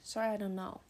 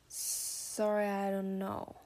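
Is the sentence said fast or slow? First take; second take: fast; slow. First: The sentence is spoken quickly and relaxed. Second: The sentence is spoken slowly and carefully. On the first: "所以我念快一点就是" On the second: "但我放慢我刚刚说的内容再听一次"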